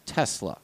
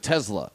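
First: The middle consonant sounds like an S. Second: The middle consonant sounds like a Z. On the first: The speaker calls it right. "It's an S" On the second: The speaker calls it wrong. "there's no fucking Z in that word"

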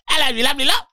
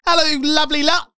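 First: It is said in a hand puppet's voice. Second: It is said in a kids' TV presenter voice.

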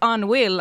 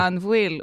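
First: The second word begins with a w sound. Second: The second word begins with a v sound.

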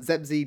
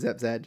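First: The final letter is said the American way. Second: The final letter is said the British way. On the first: "does kind of sound cooler" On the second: "we're in the UK, like I said at the start of the show, so I'm going to go with Zep Z"

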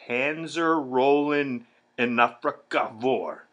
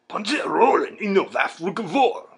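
First: It is said in a plain, unaccented way. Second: It is said with a put-on German accent.

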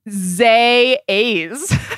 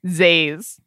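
First: The sounds are said separately at normal speed. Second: The sounds are run together quickly into one.

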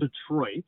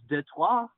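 First: It is said with an ordinary American pronunciation. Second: It is said with a French pronunciation.

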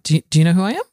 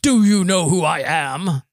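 First: It sounds like a sincere, genuine question. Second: It sounds like an arrogant, entitled demand.

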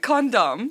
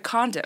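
First: The final vowel is said in the Australian way. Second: The final vowel is shortened, American style. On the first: This is how Australians say it. "we call it a condom" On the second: This is how Americans say it. "But they call it a condom"

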